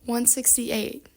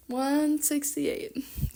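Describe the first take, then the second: First: Said in the usual way. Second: Very slow, softer repeat; drawn-out dismay. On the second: Real, not acted. Vlogger reacts to her page number, drawn-out dismay. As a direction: drag the number out in disbelief.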